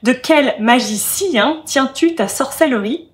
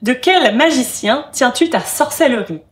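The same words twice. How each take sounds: First: The line is spoken with thirteen syllables. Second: The line is spoken with twelve syllables. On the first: "ajouter une autre syllabe dans le deuxième vers et dire" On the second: "douze syllabes"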